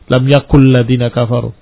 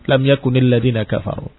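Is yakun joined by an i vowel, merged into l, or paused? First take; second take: merged; i vowel. First: The final n merges into the following l. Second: Yakun runs on with an added i vowel. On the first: "mau di idghamkan ... salah ya" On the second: "terdengar kasrah lam yakuni"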